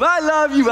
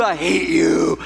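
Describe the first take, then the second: First: High, loud fake-loving greeting; sugary mock affection, pitched up; churchy sweetness. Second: Low, comic growing-resentment aside; put-on loathing, pitched down; mock hidden hatred. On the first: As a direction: gush it with put-on church cheer. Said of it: "We put on that churchy face". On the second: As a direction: drop low under the fake cheer. Hidden hatred under churchy greeting.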